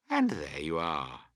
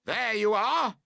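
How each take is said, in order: First: Said in the usual way. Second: High, loud told-you-so call. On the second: A narrator's reading. Both campers yelling at each other over the fallen tent, triumphant. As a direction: shout it in triumph. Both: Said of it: "you both call out".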